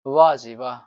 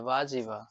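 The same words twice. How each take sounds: First: A loud, cheeky cry of "वाह जी वाह"; loud mock praise. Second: Mock flattering exclamation. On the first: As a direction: shout it like a mischievous boy praising everything. (शरारती लड़के की तरह ज़ोर से "वाह जी वाह") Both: Shown as a demonstration. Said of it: "बोलता है ना?".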